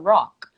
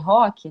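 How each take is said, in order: First: It is said with an English accent. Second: It is said with a Portuguese accent. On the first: "Mas em inglês a gente fala rock" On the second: "isso em português a gente tem esse"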